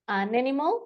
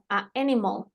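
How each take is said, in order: First: The two words run together without any break. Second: There is a small break between the two vowels. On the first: The speaker calls it right. "suena todo junto" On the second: The speaker calls it wrong. "una pausa que yo no le estoy pidiendo hacer ... estas son incorrectas"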